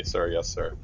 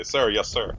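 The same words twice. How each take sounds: First: Grudging, understated military acknowledgment; comply through gritted teeth; held-back, reluctant yes to an officer. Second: Dutiful, slightly lifted military acknowledgment; brisk yes to an officer; saluting reply. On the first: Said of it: "grit their teeth and say". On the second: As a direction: answer like a sergeant saluting. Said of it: "make a salute and say". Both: Acted.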